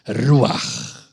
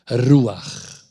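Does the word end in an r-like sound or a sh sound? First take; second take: r sound; r sound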